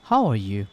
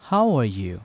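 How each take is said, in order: Both takes have the same delivery.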